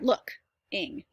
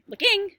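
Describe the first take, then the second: First: The stress is on the first syllable. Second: The stress is on the second syllable. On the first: The speaker calls it right. "you emphasize the verb part" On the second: The speaker calls it wrong. "You don't say looking"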